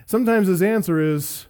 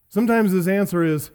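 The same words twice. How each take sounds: The two takes are said the same way.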